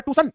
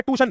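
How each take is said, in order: First: ट्यूशन said "too-sun", s for sh; misspelling voiced. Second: ट्यूशन as "too-shun", without the y; common misspelling voiced. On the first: Teacher reading another child's mistake, ट्यूशन mispronounced "toosun". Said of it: "वो लिखता है ये". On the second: Teacher quoting a child's spelling mistake, ट्यूशन mispronounced "tooshun". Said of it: "बच्चा लिखता है". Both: Shown as a demonstration.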